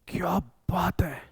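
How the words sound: It sounds surprised, like an exclamation.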